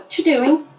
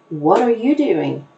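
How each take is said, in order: First: The words are squeezed into a very short form. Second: Every word is said fully and clearly. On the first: The speaker calls it wrong. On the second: The speaker calls it right.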